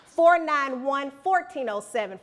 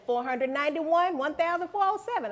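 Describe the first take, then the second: First: Slow and loud: "Four nine one, fourteen oh seven" read out digit by digit; number in digits. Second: "Four hundred ninety-one, one thousand four oh seven" read as whole numbers, playfully; number as big values. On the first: Speaker giving students her phone number, spelled out slowly digit by digit. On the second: Speaker playfully rephrasing her phone number as large values. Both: Shown as a demonstration. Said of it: "I don't care how you put it".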